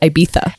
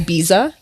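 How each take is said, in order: First: The middle consonant is a soft th sound. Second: The middle consonant is a buzzing z sound. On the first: This is how it is apparently meant to be said. The speaker calls it right. "apparently it's like a T H, and so it's Ibiza" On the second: This is how many Americans say it. The speaker calls it wrong. "a lot of Americans say Ibiza because of the Z"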